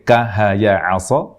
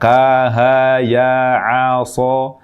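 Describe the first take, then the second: First: The vowels are held short. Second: The vowels are drawn out long.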